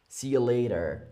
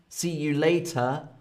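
First: The T in later sounds like a D. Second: The T in later is a hard T. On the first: "with more of a D" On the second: "with a hard T"

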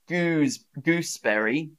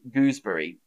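First: The 'berry' part is said fully and clearly. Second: The 'berry' part is shortened and run together. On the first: The speaker calls it wrong. "I don't say gooseberry" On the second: The speaker calls it right. "I say gooseberry"

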